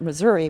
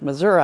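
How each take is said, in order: First: It is said in the speaker's own non-local way. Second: It is said the way the locals say it. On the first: "I would pronounce it Missouri" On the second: "it's pronounced Missouri"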